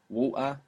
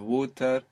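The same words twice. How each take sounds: First: The middle t is a glottal stop. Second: The middle t is a clear t. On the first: "in Cockney English, let's say, when we say water" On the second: "instead of water"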